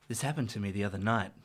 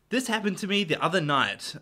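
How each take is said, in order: First: It is read in a put-on seductive voice. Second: It is read in an ordinary speaking voice.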